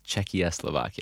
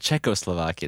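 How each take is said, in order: First: The name begins with the sounds 'Czechia'. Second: The name begins with the sounds 'Czecho'. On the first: It blends in the new name Czechia. "it's Czechoslovakia. So we're combining the new name" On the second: This is the old country name. "instead of Czechoslovakia"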